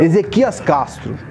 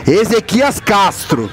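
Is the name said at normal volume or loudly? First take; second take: normal; loud. First: The name is said at normal volume. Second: The name is said more loudly.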